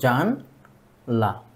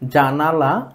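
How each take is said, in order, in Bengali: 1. মধ্যের স্বরধ্বনিটি বাদ যায়, তাই দুটি দল থাকে। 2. শব্দটি তিনটি দল নিয়ে উচ্চারিত হয়। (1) "আমরা উচ্চারণ করলাম কি জানলা" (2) "এটা সঠিক উচ্চারণ ছিল জানালা"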